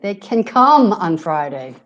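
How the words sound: The stress is on the words can come. The focus is on the action of coming. "here can come being stressed"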